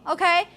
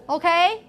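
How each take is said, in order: The two takes are said the same way.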